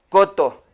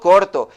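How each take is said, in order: First: The r sound before the t is left out. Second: The r sound before the t is clearly pronounced. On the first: A child who struggles with the sound tried to say it. The speaker calls it wrong. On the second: An adult models the word for the child. The speaker calls it right.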